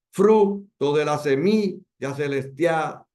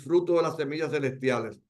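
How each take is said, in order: First: "Fruto", "semilla", "celestial" slowly scanned, punching "Fru", "mi", "tia"; stress on accented syllables. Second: Said in the usual way. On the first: Shown as a demonstration. Teacher scanning the verse's accents, "Fruto de la semilla celestial" stressed beat by beat. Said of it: "la acentuación en la primera". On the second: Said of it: "Veamos un ejemplo de un enfático".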